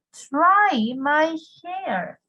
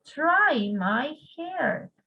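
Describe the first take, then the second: First: "Try my hair" drawn out very slowly, stress on "Try"; slow drill. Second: Slow drill again. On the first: Teacher modelling a new phrase slowly for students. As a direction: stretch "Try my hair" for the class to repeat. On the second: Teacher repeating the phrase slowly for students. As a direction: repeat "Try my hair" slowly for the class. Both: Shown as a demonstration. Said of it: "¿Qué creen ustedes que significa try my hair?".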